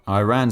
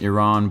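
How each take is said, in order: First: The first syllable sounds like 'eye', as in 'I ran'. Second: The first syllable sounds like 'ee', not 'eye'. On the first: It is a pun on a song title. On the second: This is how the speaker normally says the name.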